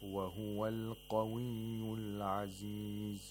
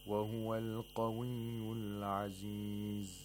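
Both takes have the same delivery.

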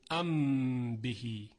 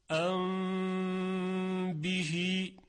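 First: The m is a full, clear closed-lip m. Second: The m is hidden with a lengthened nasal hum. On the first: The speaker calls it wrong. "ما نمیگیم ام بهی بلکه اخفا میکنیم" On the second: The speaker calls it right. "در مثال ام بهی اینطور خوانده میشه"

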